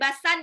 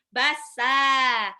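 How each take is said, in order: First: The word ends with an n sound. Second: The word ends with a long vowel. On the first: The speaker calls it wrong. "Bacanya bukan basan" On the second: The speaker calls it right. "bassa. Itu mad iwad namanya"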